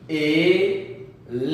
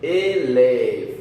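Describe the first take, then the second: First: Eleva stretched very slowly, syllable by syllable; teacher pronouncing eleva slowly. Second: Eleva slow and louder for repeating; teacher leading the repeat of eleva. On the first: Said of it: "ahora vamos a pronunciar". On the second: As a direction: say eleva slowly for them to copy. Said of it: "Repite conmigo". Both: Shown as a demonstration.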